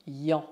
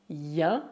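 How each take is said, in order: First: "yon" with a back nasal vowel; wrong nasal sound. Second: "yan" with an open, front nasal vowel; correct nasal sound. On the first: Teacher warns learners, mistaken back nasal "yon". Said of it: "e não yon". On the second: Teacher gives learners the right ending, front nasal "yan". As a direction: say "yan" as the end of French bien. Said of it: "se pronuncia yan e não yon". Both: Shown as a demonstration.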